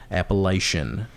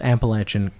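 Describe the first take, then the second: First: The third syllable sounds like 'aysh'. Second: The third syllable sounds like 'atch'. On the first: The speaker calls it wrong. "not Appalachian" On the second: The speaker calls it right. "You notice I said Appalachian, It's Atch, Atch"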